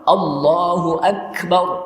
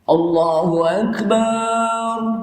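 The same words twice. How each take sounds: First: The vowel in 'bar' is kept short. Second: The vowel in 'bar' is drawn out long. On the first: It means God is Great. The speaker calls it right. "Jadi yang betul apa?" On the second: It turns the word into one meaning a drum. The speaker calls it wrong. "barnya tidak boleh dipanjangkan"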